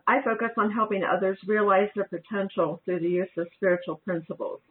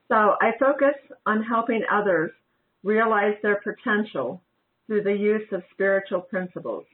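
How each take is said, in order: First: It is said at a faster pace. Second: It is said at a slower pace.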